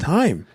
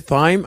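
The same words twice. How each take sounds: First: It sounds just like the word time. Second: It does not sound like the word time. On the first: The speaker calls it right. "T H Y M E is time" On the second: The speaker calls it wrong. "Apparently, you s- don't say thyme"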